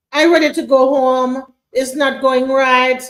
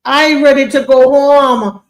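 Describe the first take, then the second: First: Put-on Caribbean accent. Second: Put-on slow, loud Caribbean accent. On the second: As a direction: drag it out in a Caribbean lilt. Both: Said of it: "if she even wrote it in a Caribbean accent".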